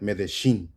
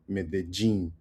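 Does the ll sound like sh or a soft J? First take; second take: sh; soft J. First: The ll is pronounced like an sh sound. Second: The ll is pronounced like a soft J sound. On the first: "in Argentine Spanish, it could sound sh" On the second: "in Colombian Spanish, it would be ja, the soft J"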